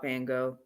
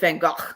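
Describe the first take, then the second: First: The name is pronounced the anglicized English way. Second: The name is pronounced the original native way. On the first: "I'm gonna be that English speaking person" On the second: "really, it's Van Gogh"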